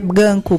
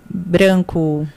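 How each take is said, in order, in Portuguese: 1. O encontro consonantal é simplificado, perdendo o r. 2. O encontro consonantal é pronunciado com clareza, com o r. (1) "Língua presa falaria ganco" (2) "É encontro de consoante"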